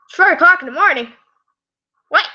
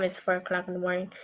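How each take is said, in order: First: High, fast startled outburst; startled disbelief. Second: Said in the usual way. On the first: Real, not acted. Reader notices how late it is, startled disbelief. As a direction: blurt it out, pitched way up.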